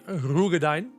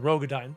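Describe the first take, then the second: First: The first syllable has an 'oo' vowel. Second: The first syllable has an 'oh' vowel. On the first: The speaker calls it right. "it's actually Ru" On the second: The speaker calls it wrong. "it's no longer Ro"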